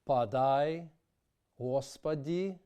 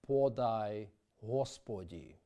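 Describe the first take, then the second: First: Unstressed O vowels are reduced toward an A sound. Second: Unstressed O vowels keep a full O sound. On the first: The speaker calls it wrong. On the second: The speaker calls it right.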